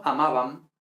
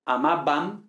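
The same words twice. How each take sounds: First: "amabam" with a loose Spanish B, lips not closing; gentle fricative B in "amabam"; soft B. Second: "amabam" with a hard B, lips shut; firm stopped B in "amabam"; fully closed B. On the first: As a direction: let the B in "amabam" slide softly. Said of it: "no amabam". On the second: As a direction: press the lips together for the B of "amabam". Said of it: "Con esta B cerrando totalmente los labios". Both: Shown as a demonstration.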